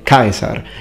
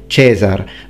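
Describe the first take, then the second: First: It uses the classical Latin pronunciation. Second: It uses the ecclesiastical Latin pronunciation. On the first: "In ecclesiastical pronunciation, for example, you don't say Caesar" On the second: "you say Caesar"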